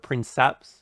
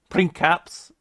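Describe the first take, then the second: First: The c is pronounced as a soft s. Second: The c is pronounced as a hard k. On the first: The speaker calls it wrong. "instead of" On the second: The speaker calls it right. "the Latin C is a hard K"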